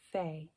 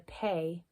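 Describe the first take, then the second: First: It begins with a soft f sound. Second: It begins with a hard p sound. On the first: The letter has no dot inside it. "when there's no Dagesh" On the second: The letter has a dot inside it. "hard plosive sound when it's inside the letter"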